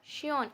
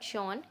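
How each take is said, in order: First: The vowel is a fronted, rounded ö sound. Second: The vowel is a plain back o sound. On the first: The speaker calls it right. "This is श्योन" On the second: The speaker calls it wrong. "Not शॉन"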